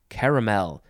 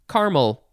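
First: The middle vowel is pronounced, giving three syllables. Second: The middle vowel is dropped, giving two syllables. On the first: "like my wife, say caramel. She feels very strongly that you have to say caramel" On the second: "So most people say caramel"

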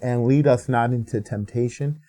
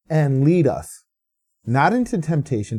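First: It runs on with no pause after "us". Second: There is a pause after "us".

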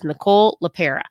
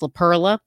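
First: No L sound comes before the last syllable. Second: An extra L sound comes before the last syllable. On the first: The speaker calls it right. "It is Nicole LaPera" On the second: The speaker calls it wrong. "I definitely mispronounced her name and put an L in there"

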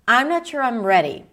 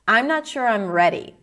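Both takes have the same delivery.

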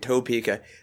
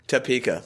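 First: The first syllable sounds like 'toe'. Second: The first syllable sounds like 'tuh'. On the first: It is the way outsiders say the name. "I love that we're saying Topeka" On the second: It is the way locals say the name. "everybody in Kansas says just... like it's T-A-P-E-K-A"

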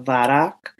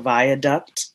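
First: The word has a local Baltimore pronunciation. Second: The word has a standard, non-local pronunciation. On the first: This is how locals name the road. "in Baltimore, we call that the Viaduct" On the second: This is the word's proper form. "which is really the viaduct"

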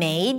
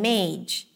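First: The word ends in a plain d sound. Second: The word ends in a j sound. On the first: The speaker calls it right. "instead of saying maid" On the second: The speaker calls it wrong. "you may hear someone saying mage"

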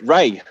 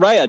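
First: The name is said with one syllable. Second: The name is said with two syllables. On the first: The speaker calls it right. "just Ray. ... It's pronounced Ray, like R-A-Y" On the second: The speaker calls it wrong. "not Rhea"

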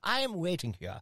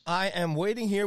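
First: It is said in a put-on English accent. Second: It is said in the speaker's ordinary accent.

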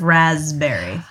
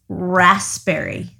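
First: The first syllable is said with a Z sound. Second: The first syllable is said with an S sound. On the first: This is the pronunciation the speaker used before. "You thought it was a Z?" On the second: This is the pronunciation the speaker recently learned. "I just realized it's raspberry"

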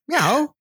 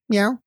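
First: It sounds hungry and fearful, like a question. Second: It sounds warm and affectionate.

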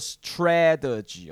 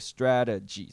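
First: The t after s is a strong aspirated t. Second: The t after s sounds like a soft d. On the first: The speaker calls it wrong. "你不要念作strategy 哦。通常我们大家这样念会比较难听一点啦。" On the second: The speaker calls it right. "所以我们通常会有一个那个的声音，不是特的声音出来哈"

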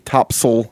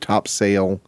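First: It is pronounced the way sailors say it. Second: It is pronounced the ordinary, non-sailor way. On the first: This is how sailors say the word. "they say topsail" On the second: This is how people other than sailors say the word. "instead of topsail"

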